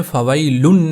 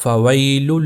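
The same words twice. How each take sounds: First: فویل said as "fawailun" with a stressed n ending; فویل with the n sounded; mispronunciation. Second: فویل said "fawaylu", flowing toward l; فویل ending open on "-lul"; correct merged ending. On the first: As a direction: end فویل on a clear "-lun". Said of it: "فویل نہیں پڑھنا". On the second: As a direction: leave the n out of فویل. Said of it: "بلکہ یہ ہوگا". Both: Shown as a demonstration.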